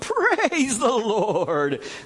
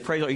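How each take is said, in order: First: It is said slowly, dragged out. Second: It is said plainly at normal length.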